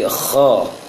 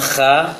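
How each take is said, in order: First: The vowel is heavy and rounded, like o. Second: The vowel is thin and open, like a. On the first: The speaker calls it right. "tapi kho" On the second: The speaker calls it wrong. "Jangan kha"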